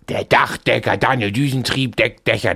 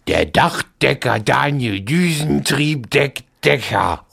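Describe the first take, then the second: First: It is said fast. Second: It is said slowly.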